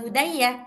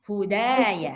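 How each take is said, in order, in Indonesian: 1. Vokal suku kata kedua pendek. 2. Vokal suku kata kedua ditahan panjang. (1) "Bukan hudaya" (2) "Dua harkat"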